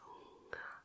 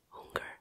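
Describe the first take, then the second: First: The word ends in an open 'ah' vowel. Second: The word ends in a clear 'er' sound. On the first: The speaker calls it right. "You say Hunger more like an A at the end" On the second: The speaker calls it wrong. "Not Hunger or something like that"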